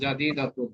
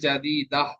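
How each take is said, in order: First: The word ends with a full -atun ending. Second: The word ends with a short -ah sound. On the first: This is the normal form in running speech. "দুই পেশ হবে" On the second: This is the form used when stopping on the word. "ওয়াকফ করলে"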